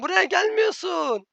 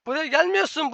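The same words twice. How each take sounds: First: Buraya stretched high and slow, every syllable spelled out; slow exasperated stress on Buraya. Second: Said in the usual way. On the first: Real, not acted. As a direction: drag out Buraya gelmiyorsun like scolding a slow teammate.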